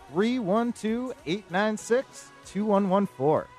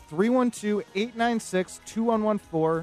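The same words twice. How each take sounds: First: The number is said slowly. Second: The number is said at normal speed.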